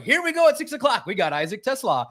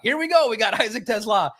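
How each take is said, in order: First: High, hammed-up TV intro; mock the nightly news lead-in; TV announcer voice. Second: High, hammed-up TV intro, laughing; mock the news lead-in again; TV announcer voice. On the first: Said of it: "It's like". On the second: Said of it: "And the next day at seven o'clock".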